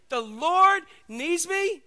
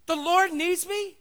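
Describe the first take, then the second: First: Very slow, high, loud wonder; awed disbelief. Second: Slow, high, loud astonished question; amazed disbelief. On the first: Donkey repeating the news to himself, slow and awed. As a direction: draw out each word in awe. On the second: Donkey stunned that the Lord needs him, slow and high. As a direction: savour the unbelievable news. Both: Acted.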